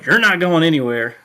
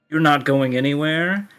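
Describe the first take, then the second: First: It is said in Felix's character voice. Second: It is said in the speaker's own voice.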